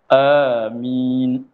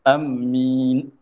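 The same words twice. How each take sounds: First: Long first vowel and a single m. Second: Short first vowel and a doubled m. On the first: "panjangkan hamzah, mim tidak bertasydid" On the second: "boleh kita tasydid akan mim"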